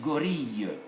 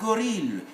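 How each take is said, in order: First: The double L sounds like a Y. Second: The double L sounds like an L. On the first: The speaker calls it right. "it's gorille" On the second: The speaker calls it wrong. "It's not gorille"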